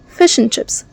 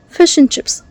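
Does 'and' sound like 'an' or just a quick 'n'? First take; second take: n; n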